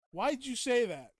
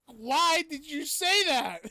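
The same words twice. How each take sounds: First: Loud, higher, hammed-up protest; mock indignant outburst. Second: Slow, stretched, much higher and louder lament; dramatic mock wail. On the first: Streamer protesting a viewer's remark, mock indignant. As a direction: play offended, loudly. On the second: Streamer wailing at a viewer's remark, hammed-up. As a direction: drag every word out like a wounded diva.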